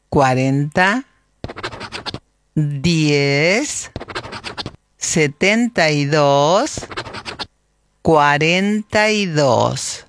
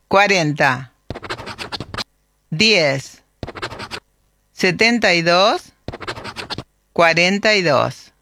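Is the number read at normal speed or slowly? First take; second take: slowly; normal speed. First: The number is read slowly. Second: The number is read at normal speed.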